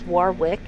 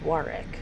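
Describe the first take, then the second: First: The middle w sound is pronounced. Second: The middle w sound is silent. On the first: The speaker calls it wrong. "because that's how it's spelled, but it's not" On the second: The speaker calls it right. "It's Warwick"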